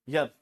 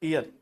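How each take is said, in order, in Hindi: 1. शब्द की शुरुआत छोटे y sound से होती है। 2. शब्द की शुरुआत लंबे ee vowel से होती है। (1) "इसको पढ़ा जाता है यर।" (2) "और हम लोग क्या पढ़ते हैं? ईयर। ईयर नहीं होता"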